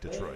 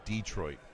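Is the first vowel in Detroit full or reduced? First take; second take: reduced; full. First: The first vowel is short and reduced. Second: The first vowel is said as a full E. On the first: "most people say Detroit" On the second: "you really pronounce that E"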